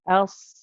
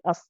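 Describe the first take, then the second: First: The sound is held and prolonged. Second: The sound is cut off quickly. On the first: The speaker calls it right. "The sad is prolonged. So we stay on it" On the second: The speaker calls it wrong. "We don't cut it short and just say us"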